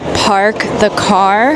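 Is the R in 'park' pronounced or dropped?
pronounced. The R in park is pronounced. "when they say park the car"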